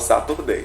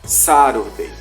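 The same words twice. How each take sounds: First: The t is sounded as a clear t. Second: The t is sounded as a light r. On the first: The speaker calls it wrong. "eu falava Saturday, mas não" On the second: The speaker calls it right. "Ele vai trocar esse T pelo R"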